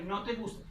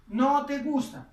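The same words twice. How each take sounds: First: Said in the usual way. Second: No te gusta with a loud, drawn-out No; teacher stressing the No for the class; stressed model phrase. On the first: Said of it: "Estoy diciendo ahí". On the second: Shown as a demonstration. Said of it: "estoy diciendo".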